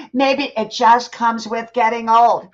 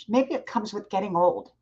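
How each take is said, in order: First: Louder and slower, each word weighted; slow, emphatic repeat. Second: Said in the usual way. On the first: Shown as a demonstration. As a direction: drive the point home slowly and firmly.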